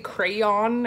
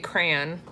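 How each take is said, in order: First: The word is said with every syllable clearly enunciated. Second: The word is said casually, not fully enunciated. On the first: "really enunciate it?" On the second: "I say crayon"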